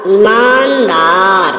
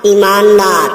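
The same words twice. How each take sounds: First: ईमानदार, slowly drawn out, long vowels; correct pronunciation. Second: ईमानदार, quick, with short first i; wrong pronunciation. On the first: Teacher showing students the correction, slow long vowels in ईमानदार. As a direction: stretch ईमानदार syllable by syllable. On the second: Teacher showing students the error, quick short i in ईमानदार. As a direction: keep the opening vowel of ईमानदार brief. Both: Shown as a demonstration. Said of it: "बड़ी ई की अशुद्धियां".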